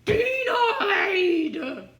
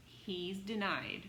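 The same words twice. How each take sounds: First: Loud, high "Denied!" with a laugh in it; laughing mock shout. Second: Said in the usual way. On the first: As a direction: crow the verdict gleefully. Fifth failure, laughing mock rejection.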